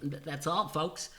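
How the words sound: It is said in a put-on cartoon voice.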